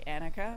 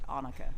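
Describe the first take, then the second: First: The name is pronounced the American way. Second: The name is pronounced the Dutch way. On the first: It is easier for listeners in the US to understand. "here in the U S, I say Annika because people understand it a little better" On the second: This is the name's original pronunciation. "in Dutch, you pronounce it Annika"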